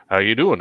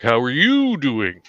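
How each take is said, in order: First: "How you doing?" tossed off casually, stress on doing; wrong reading. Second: "How are you doing?" slow, stress hit on you; overplayed reading. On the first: Misreading a line the wrong way, "How you doing?" said casually. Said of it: "it's like, instead of". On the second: Actor misreading the line, "How are you doing?" slow with stress on you. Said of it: "it's like". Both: Shown as a demonstration.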